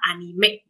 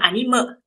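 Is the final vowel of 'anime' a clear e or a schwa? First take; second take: clear e; schwa. First: The final vowel is a clear e. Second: The final vowel is a weak schwa. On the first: The speaker calls it right. "E-nya adalah e tajam diakritiknya ya" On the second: The speaker calls it wrong. "bukan anime"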